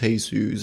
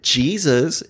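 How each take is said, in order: First: Jesus said the Spanish way, "hay-SOOS"; Jesus with an H sound at the start; Spanish pronunciation. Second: Jesus said the English way, "JEE-zus"; Jesus with a J sound at the start; English pronunciation. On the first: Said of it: "its name is pronounced Jesus". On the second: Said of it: "How do you pronounce it?". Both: Retold or imitated.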